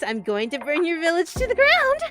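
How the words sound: It is spoken high up in head voice. "all the way up in your head voice"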